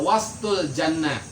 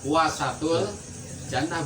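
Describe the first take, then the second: First: The s and t come together with no vowel. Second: A short vowel separates the s and t. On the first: It is the middle of paradise. "kalau wastul jannah berarti tengah-tengahnya sur surga" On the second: It is the choicest part of paradise. "kalau huwa wasatul jannah berarti surga pilih pilihan"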